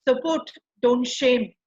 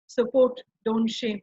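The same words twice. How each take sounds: First: Slow, weighted words; slow stress. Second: Said in the usual way. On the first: Shown as a demonstration. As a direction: lean on support and shame.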